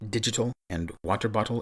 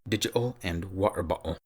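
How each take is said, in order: First: The t sounds are clearly pronounced. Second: The t sounds become glottal stops.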